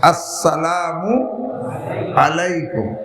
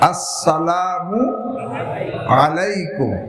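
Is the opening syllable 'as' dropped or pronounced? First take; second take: pronounced; pronounced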